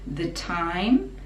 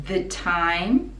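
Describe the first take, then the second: The two takes are said the same way.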